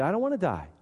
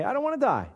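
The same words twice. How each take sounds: First: Said in the usual way. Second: Whiny reply. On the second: Acted. We answer the flesh.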